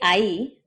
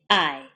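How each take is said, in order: First: Two clear vowels, ending in a crisp 'ee'. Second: Relaxed vowels, ending in a lax glide. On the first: "We don't say ahí" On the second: "we say I"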